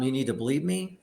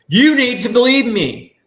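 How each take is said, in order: First: It is said quietly and flatly. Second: It is said loudly and emotionally.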